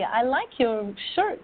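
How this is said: It is said warmly and sincerely, with a smile. The speaker likes the shirt. "I look at you and I smile and I say"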